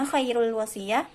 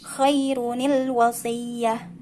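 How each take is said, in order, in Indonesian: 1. Bunyi n dihilangkan sebelum l. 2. Bunyi n dipertahankan, disambung dengan i. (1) "Tentu bukan" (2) "Kita ganti harokat nun ini jadi kasroh"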